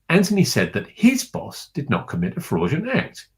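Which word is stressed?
his. The stress is on the word his.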